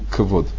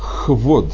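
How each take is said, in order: First: The word starts with a hard k sound. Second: The word starts with a raspy kh sound. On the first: The speaker calls it wrong. "а не квод" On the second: The speaker calls it right. "слово кавод пишется без дагеша"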